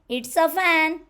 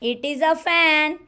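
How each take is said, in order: First: It is contracted into one short syllable. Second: It is said in full, two separate words.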